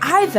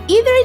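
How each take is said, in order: First: It is said with the British pronunciation. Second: It is said with the American pronunciation. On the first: "mostly used by British" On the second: "commonly used by Americans"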